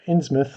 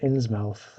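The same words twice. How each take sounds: First: It is said in a New England accent. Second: It is said in a general American accent.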